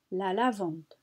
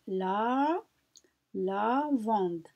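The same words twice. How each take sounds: First: Said in the usual way. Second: "la" held, then a pause before "lavande"; words separated. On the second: Shown as a demonstration. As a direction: split it for learners: "la", pause, "lavande". (« la » allongé, pause, puis « lavande ») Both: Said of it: "Quel est le titre du".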